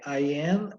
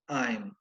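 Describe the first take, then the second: First: Two separate full words are said. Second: The words merge into one contracted syllable. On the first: Used when listeners should hear each word clearly. "quando é I am" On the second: The form most speakers commonly use. "é I'm"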